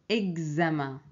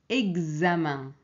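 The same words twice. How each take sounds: Both takes have the same delivery.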